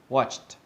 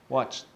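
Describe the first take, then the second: The two takes are said the same way.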